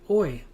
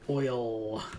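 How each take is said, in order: First: The final L sound is dropped. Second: The final L sound is clearly pronounced. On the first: "I pronounce it oi" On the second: "Some people say oil and really pronounce the L"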